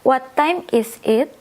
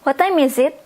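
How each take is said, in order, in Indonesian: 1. Frasa itu diucapkan dengan lambat dan terpisah-pisah. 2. Frasa itu diucapkan dengan cepat, kata-katanya menyambung. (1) "Kalau mau lambat juga bisa" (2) "Tapi kebanyakan bilangnya"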